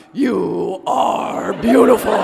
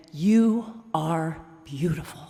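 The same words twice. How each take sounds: First: Slow, loud, drawn-out compliment; a mock-deep, loud crooning to the bear; super deep voice. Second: Said in the usual way. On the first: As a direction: boom it out slowly like a hammed-up giant. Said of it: "in my super deep voice". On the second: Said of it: "Only I said it in my super deep voice".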